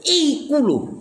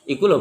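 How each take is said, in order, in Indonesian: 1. Diucapkan dengan penekanan yang kuat dan tegas. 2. Diucapkan dengan suara yang biasa dan wajar. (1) "Tapi ketika ngomong wow" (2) "Kalau ngomongnya standar"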